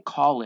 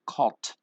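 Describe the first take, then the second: First: The ending is said as an extra syllable. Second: The word ends in a t sound. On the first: "We don't say called" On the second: "we don't say calt"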